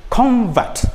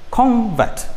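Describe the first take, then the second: First: The stress is on the first syllable. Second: The stress is on the first syllable.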